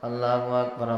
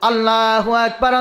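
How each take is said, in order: First: The phrase is said quietly and softly. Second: The phrase is said loudly and strongly. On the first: The speaker is hesitant and afraid. "এখন আস্তে আস্তে বলে" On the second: The speaker has been encouraged to speak up. "তখন জোরে বলছে"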